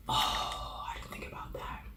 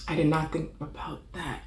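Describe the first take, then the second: First: Hushed whisper to herself; whispered regret. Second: Full voice, leaning on "did not"; emphatic admission; stress on did. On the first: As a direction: breathe it out as a secret realisation. Whispers realisation, then repeats loud. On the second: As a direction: hit "did" then "not". Emphatic repeat after the whisper. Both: Real, not acted.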